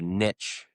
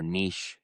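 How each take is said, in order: First: NICHE said as "nitch", short i and tch ending; niche rhyming with pitch. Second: NICHE said as "neesh", long ee and sh ending; niche rhyming with leash. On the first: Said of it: "or niche, as they say". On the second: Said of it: "as they say". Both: Shown as a demonstration.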